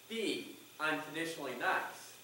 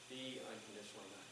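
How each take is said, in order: First: The phrase is said at normal, fuller volume. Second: The phrase is said in a dropped, soft voice. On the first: The message is delivered for the first time. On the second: The message is reaffirmed to oneself and draws attention.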